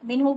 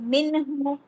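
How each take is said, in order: First: The n glides smoothly into the next syllable. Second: The n is released with a jolting bounce. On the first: The speaker calls it right. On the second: The speaker calls it wrong.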